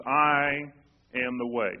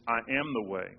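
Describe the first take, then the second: First: "I" hit hard and loud, then a pause before "am the way"; Jesus insisting to the disciples, "I" punched out and held apart; stress on I. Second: Said in the usual way. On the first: Retold or imitated. Heavy stress on "I" before "am the way". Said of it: "Jesus makes this statement. He says, "Look". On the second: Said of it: "makes this emphatic statement".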